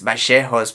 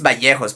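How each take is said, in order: First: The double L has the Argentinian sound. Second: The double L has a non-Argentinian sound. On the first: This is a regional way of saying the name. The speaker calls it wrong. "Argentinians says Vallejos because ... the way they pronounce the double L" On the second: This is how his name is actually said. The speaker calls it right. "it's Vallejos, by the way"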